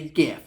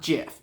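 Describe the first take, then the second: First: It starts with a hard G sound. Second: It starts with a soft J sound. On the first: The speaker calls it right. "I say GIF" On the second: The speaker calls it wrong. "not GIF"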